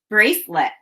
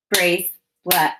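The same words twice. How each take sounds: First: Said in the usual way. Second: "Bracelet" slowly split, brace, pause, let; chopped syllables. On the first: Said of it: "chop the two syllables". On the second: Shown as a demonstration. Teacher modelling syllables for children, "Bracelet" chopped in two. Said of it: "chop the syllables in bracelet".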